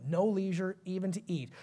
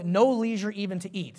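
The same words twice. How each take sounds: First: No leisure even to eat said much softer, letting it sink; softer repeat. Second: Said in the usual way. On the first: Shown as a demonstration. Preacher repeats the verse to the congregation, much softer.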